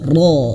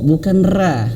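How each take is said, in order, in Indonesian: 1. Huruf ini dibaca tebal dan berat. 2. Huruf ini dibaca tipis dan ringan. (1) "ro ditebalkan"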